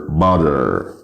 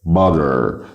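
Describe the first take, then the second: First: The final r sound is pronounced. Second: The same.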